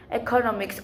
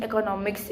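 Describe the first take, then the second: First: "economics" opening on a long EE; second variant pronunciation. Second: "economics" opening on a short E, as in "echo"; first variant pronunciation. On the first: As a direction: say "economics" starting with "eek". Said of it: "either economics or economics". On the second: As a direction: say "economics" starting with "eck". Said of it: "pronouncing economics is either". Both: Shown as a demonstration.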